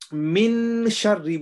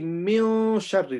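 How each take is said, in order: First: The n sound is pronounced clearly. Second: The n sound is hidden through the nose. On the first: The speaker calls it wrong. "instead of saying min sharri" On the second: The speaker calls it right. "we say mio sharri like that"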